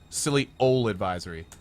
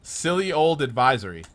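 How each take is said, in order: First: The word old is said as ol, without d. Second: The word old ends with a clear d sound. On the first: The speaker calls it right. "I had to say ol" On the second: The speaker calls it wrong. "not old"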